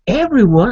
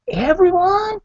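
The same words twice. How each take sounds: First: High, loud questioning exclamation; surprised outburst, voice raised; incredulous. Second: Very high-pitched, loud squeal of disbelief; hammed-up squeaky amazement; more incredulous. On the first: Acted. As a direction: act astonished, pitched up and loud. Repeated mock-incredulous quote. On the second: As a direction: push the astonishment way up high. Repeated quote, pitched higher.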